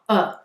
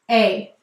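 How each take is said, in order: First: The vowel is a short, relaxed 'uh'. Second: The vowel is a long 'ay'. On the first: "here's another great example of that schwa" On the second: "We will say to spell a"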